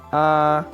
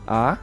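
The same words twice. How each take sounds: First: The pitch stays level from start to end. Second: The pitch rises lightly from low to high. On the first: "A itu nada satu. ... datar" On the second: "er sheng, nada dua ... naik ke atas"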